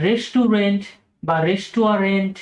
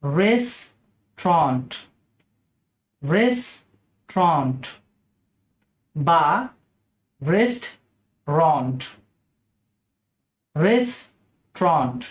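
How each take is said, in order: First: রেস্টুরেন্ট with full res-tu-rent; common mispronunciation. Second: রেস্টুরেন্ট very slow as REST-rnt; slow correct pronunciation. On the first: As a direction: demo the usual error. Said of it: "ইত্যাদি বলে থাকি". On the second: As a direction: drag out রেস্টুরেন্ট clearly. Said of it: "শব্দটি হচ্ছে". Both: Shown as a demonstration.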